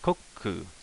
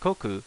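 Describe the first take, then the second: First: A small pause comes before the ku. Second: It is said smoothly with no pause before ku. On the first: The speaker calls it right. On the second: The speaker calls it wrong.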